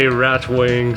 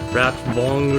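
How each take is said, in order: First: The name is said with an American-style pronunciation. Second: The name is said with a German-style pronunciation. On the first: The speaker calls it wrong. "I'm too American to pronounce things properly" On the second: The speaker calls it right. "I think they pronounce it Ratvong or something"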